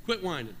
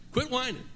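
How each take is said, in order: First: Said in the usual way. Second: Quit whining lifted higher and firmer; stress on Quit. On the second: Shown as a demonstration. Pastor repeating a firm rebuke to the congregation. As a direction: repeat it sharper, hit Quit.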